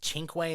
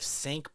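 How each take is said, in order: First: The name is said as 'chink-way'. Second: The name is said as 'sink'. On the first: The speaker calls it right. "I think it's pronounced Chinkway" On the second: The speaker calls it wrong. "instead of Sync"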